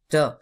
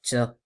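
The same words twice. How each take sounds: First: The t is released without a puff of air. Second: The t is released with a puff of air. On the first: The speaker calls it right. "c'est ta" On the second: The speaker calls it wrong. "c'est pas ta ... on a tendance à laisser passer un petit peu d'air"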